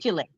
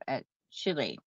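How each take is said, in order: First: It is pronounced the local Indiana town way. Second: It is pronounced like the country's usual name. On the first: It names the town in Indiana. "Back where I'm from in Indiana, they call that Chile. It's like this" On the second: It names the South American country. "Am I saying that right?"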